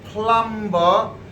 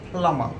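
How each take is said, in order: First: A B sound is heard after the m. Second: No B sound is heard after the m. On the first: The speaker calls it wrong. "we pronounce this plumber" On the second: The speaker calls it right. "B is completely silent in here"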